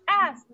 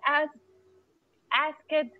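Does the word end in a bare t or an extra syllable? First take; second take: bare t; extra syllable. First: The ending is a bare t sound. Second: The ending is an extra syllable, like it. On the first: The speaker calls it right. "Like a T here" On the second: The speaker calls it wrong. "Not ask it"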